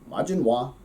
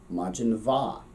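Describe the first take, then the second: First: The second word begins with a W sound. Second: The second word begins with a V sound. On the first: This is the western dialect form. "But for us, speaking Connacht" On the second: This is the southern dialect form. "if we were speaking Munster, Southern Irish, uh, that would actually make a V sound"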